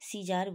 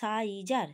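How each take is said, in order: First: The first vowel sounds like 'ee'. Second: The first vowel sounds like 'eye'. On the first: The speaker calls it right. "C এর পর আবার ইতে চলে আসে উচ্চারণে" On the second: The speaker calls it wrong. "কিন্তু বলি না"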